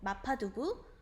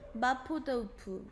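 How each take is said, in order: First: It is said with the usual Korean pronunciation. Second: It is said with the original Chinese-style pronunciation.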